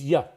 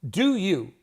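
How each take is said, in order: First: The two words are squeezed into one short syllable. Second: Both words are said fully and separately.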